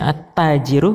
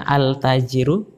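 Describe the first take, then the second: First: The article's L merges into the doubled T. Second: The article's L is clearly pronounced before T. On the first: The speaker calls it right. "kata yang tidak dibaca alif lamnya" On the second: The speaker calls it wrong.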